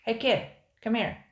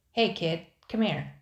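First: Lightly voiced pirate yell, a touch louder. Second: Pirate calling out. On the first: A second pirate yelling across the camp to the kid. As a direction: call the kid over from another fire. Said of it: "yelled another pirate". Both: A narrator's reading.

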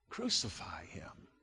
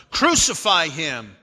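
First: Very soft, low narrated shout; hushed crowd cry. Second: Loud, forceful narrated cry; raised-voice shout from the crowd; louder crowd shout. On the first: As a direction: echo the crowd's cry far under the voice. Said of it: "they shouted". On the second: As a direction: read the crowd's demand louder. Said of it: "they shouted all the louder". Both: A narrator's reading.

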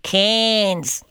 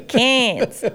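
First: Cairns with a Queensland accent. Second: Cairns drawn out Queensland style; Queensland accent. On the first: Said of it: "I'm just gonna say that for you in a Queensland accent". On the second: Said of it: "so I'm gonna put on an accent for this". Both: Shown as a demonstration.

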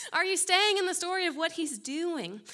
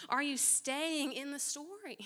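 First: Preacher pushes the congregation, louder and higher; louder, higher repeat. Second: Said in the usual way. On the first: Shown as a demonstration. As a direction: press the question harder, louder. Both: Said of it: "same words repeated louder".

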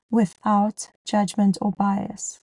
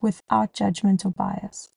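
First: Slow, deliberate stress on "without judgment or bias"; emphatic repeat. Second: Said in the usual way. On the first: Real, not acted. Host stressing a key point to working moms, slow and emphatic. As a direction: spell out "without judgment or bias" slowly, word by word. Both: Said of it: "I want to emphasize this".

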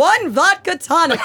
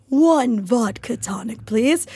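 First: Slow, high, projected order like a stage actor; theater-kid order. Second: Slow, breathy whispered theatrical order; theater-kid order. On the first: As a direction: deliver it like a theater kid at the bar. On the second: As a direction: hush it out slowly like a dramatic diva. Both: Retold or imitated. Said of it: "that is how theater people order drinks".

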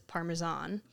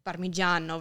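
First: "Parmesan" said the American way; Americanized pronunciation. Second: "Parmigiano" said the Italian way; proper Italian pronunciation. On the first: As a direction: say "Parmesan" as an English word, ending in "zahn". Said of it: "versus Parmesan". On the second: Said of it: "try to pronounce things properly". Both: Shown as a demonstration.

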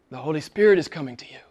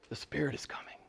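First: Said in the usual way. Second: Hushed whisper, almost no voice. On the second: Acted. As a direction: lean in and whisper the promise. Whispered after "but don't worry.

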